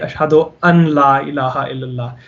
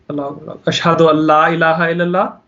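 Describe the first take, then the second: First: The n sound before la is clearly pronounced. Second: The n sound before la is silent. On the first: The speaker calls it wrong. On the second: The speaker calls it right.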